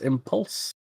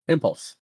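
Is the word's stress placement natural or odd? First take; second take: odd; natural. First: The stress falls on an unusual syllable. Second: The stress falls on the usual syllable. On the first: The speaker calls it wrong. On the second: The speaker calls it right.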